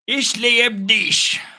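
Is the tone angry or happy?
angry. It is said in an angry tone. "you got to do it angrily because German sounds angry"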